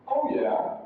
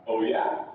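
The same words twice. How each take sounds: First: "Oh yeah" high on OH, falling away; falling intonation. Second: "Oh yeah?" starting low, rising on YEAH; rising intonation. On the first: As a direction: start "Oh yeah" high, drop on YEAH. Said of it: "it's gonna be falling intonation". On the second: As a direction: begin "Oh yeah?" low and lift it. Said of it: "That's rising intonation". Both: Shown as a demonstration.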